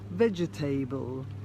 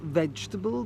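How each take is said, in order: First: Each letter of the spelling is sounded out. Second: Every sound is said in the natural way. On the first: The speaker calls it wrong. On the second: The speaker calls it right.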